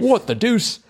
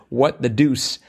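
First: It is said in an attempted British accent. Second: It is said in the speaker's ordinary accent.

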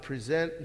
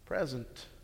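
First: The stress is on the second syllable. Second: The stress is on the first syllable. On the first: To offer or hand over something. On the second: A gift.

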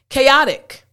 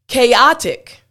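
First: The word is said quickly and smoothly. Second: The word is said slowly and carefully.

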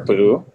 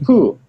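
First: The vowel is long and drawn out. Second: The vowel is a short, quick puff. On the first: The speaker calls it wrong. "It's not like the bear poo, where it's like too much ooh" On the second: The speaker calls it right. "Like you're pretending to blow a fly off of your arm"

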